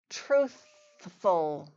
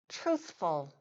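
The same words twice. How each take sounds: First: The word is said slowly and drawn out. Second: The word is said at normal conversational speed.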